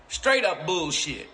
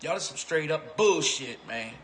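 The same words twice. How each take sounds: First: Straight up bullshit dragged out, each word hit; slow emphatic repeat. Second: Said in the usual way. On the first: Real, not acted. Repeating himself to viewers, slow and emphatic. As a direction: lean on "Straight" and slow it right down.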